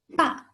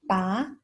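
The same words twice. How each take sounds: First: The pitch falls sharply from high. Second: The pitch rises from mid to high. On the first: "The last tone, the falling tone" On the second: "Second tone, the rising tone"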